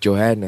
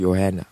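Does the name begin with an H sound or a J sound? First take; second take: J sound; H sound. First: The name begins with a J sound. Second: The name begins with an H sound. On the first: The speaker calls it wrong. "just know you said it wrong" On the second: The speaker calls it right. "So Johanna"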